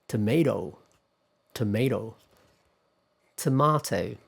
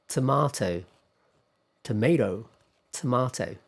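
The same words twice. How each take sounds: No difference in how they are said.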